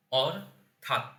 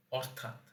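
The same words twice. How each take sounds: First: অর, pause, থাত; syllable by syllable. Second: Said in the usual way. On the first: Shown as a demonstration. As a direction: say অর থাত as two separate syllables. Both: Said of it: "এটাকে যদি আমি উচ্চারণে ভাঙি".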